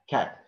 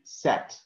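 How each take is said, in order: First: It starts with a K sound. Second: It starts with an S sound. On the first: The speaker calls it right. "you have to say cat" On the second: The speaker calls it wrong. "You have not to say sat, no"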